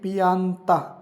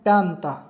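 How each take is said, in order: First: The word is said slowly, syllable by syllable. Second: The word is said quickly as two syllables. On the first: The speaker calls it wrong. "अगर धीरे धीरे बोलोगे तो ध्वनि ऐसे आएगी" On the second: The speaker calls it right. "सही उच्चारण करोगे इटालियन की तरह"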